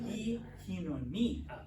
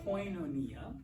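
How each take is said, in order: First: The first vowel is an 'ee' sound. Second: The first vowel is an 'oy' sound. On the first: The speaker calls it right. "is actually pronounced E hinonia" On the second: The speaker calls it wrong. "which you might know as koinonia"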